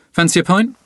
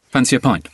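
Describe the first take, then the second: First: "Fancy a pint?" asked with a clear rise on "pint"; rising question. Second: "Fancy a pint." said flat and falling on "pint"; casual offer with the pitch dropping on "pint"; falling statement. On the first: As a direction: offer it as a friendly question, pitch lifting on "pint". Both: Shown as a demonstration. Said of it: "a very common phrase to use is this one".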